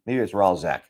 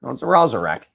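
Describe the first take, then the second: First: "Ralzek" said in two syllables, RAL-zek; shortened pronunciation. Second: "Ralzarek" said in three syllables, RAL-za-rek; corrected pronunciation. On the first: Guessing at a card's name, "Ralzek" in two syllables. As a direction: say "Ralzek" without a middle syllable, lower and softer. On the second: Settling on a card's name, "Ralzarek" in three syllables. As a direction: say "Ralzarek" with the middle syllable sounded. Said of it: "I was right". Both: Real, not acted.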